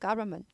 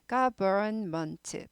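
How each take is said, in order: First: The word is said quickly and compressed. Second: The word is said slowly and carefully. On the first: "빨리 하면" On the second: "천천히 말하면은"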